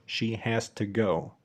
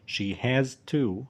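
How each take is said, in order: First: "to" shrunk to "tuh" ahead of "go"; slow model line with schwa in "to"; reduced "to". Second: Final "to" with a full oo vowel; slow teacher's model, clear long "to"; full form of "to". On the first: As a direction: glide through a weak "to" into "go". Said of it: "تاني واحدة قلنا ت". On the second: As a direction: stop on a fully voiced "to". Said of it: "أول واحدة قلنا to لأنها نهاية جملة". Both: Shown as a demonstration.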